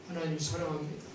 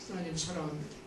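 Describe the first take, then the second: Both takes have the same delivery.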